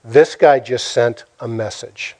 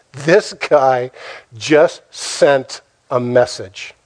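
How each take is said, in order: First: Said in the usual way. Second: "This guy ... just ... sent a message", broken by pauses; weighty pauses after "guy" and "just"; slow, emphatic. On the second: Retold or imitated. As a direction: spell out "just sent a message" slowly, word by word. Repeats the line for emphasis.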